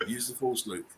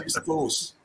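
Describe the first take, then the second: First: Said in the usual way. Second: A mock mystical hushed whisper of Use the force; breathy whisper. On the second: Shown as a demonstration. Quoting Star Wars line twice.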